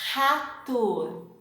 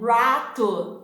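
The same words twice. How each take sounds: First: It begins with a throaty H-like sound. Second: It begins with an English-style R sound. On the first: The speaker calls it right. "it's the same sound for the words" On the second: The speaker calls it wrong. "as an English speaker, you tend to pronounce something like this"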